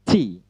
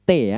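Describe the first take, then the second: First: "T" with a hissing puff of air; aspirated "T", tongue behind upper teeth; English T. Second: Plain "T" as Indonesian te, no puff; unaspirated Indonesian "T". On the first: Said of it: "T dalam English phonetic symbols". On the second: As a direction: say "T" without any burst of air. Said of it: "Bukan T ya". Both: Shown as a demonstration.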